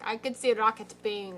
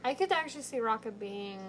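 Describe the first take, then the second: First: A light Sokovian accent, mock Wanda. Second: First take with a light British accent. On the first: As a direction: quote it with a faint Wanda accent. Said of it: "I sounded like Wanda". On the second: Shown as a demonstration. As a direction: say it lightly British, then repeat it. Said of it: "what was my accent?".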